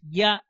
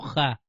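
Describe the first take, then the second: First: The name begins with a y sound. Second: The name begins with a rough h sound. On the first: The speaker calls it right. "la correcta pronunciación es ya" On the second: The speaker calls it wrong. "y no ja"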